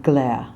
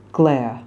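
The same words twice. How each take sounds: First: "glare" without R; British glare. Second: "Glare" with eh and R; American glare. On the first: Coach showing the wrong word. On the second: Coach modelling the American word. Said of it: "not glare". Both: Shown as a demonstration.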